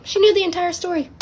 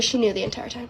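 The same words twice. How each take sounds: First: High-pitched, incredulous repeat; emphatic disbelief. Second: Said in the usual way. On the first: Real, not acted. Teller reveals grandma knew, emphatic disbelief. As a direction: hit the reveal much higher.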